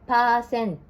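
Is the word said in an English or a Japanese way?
Japanese. It is said with Japanese katakana pronunciation. "in Japanese, we pronounce like this"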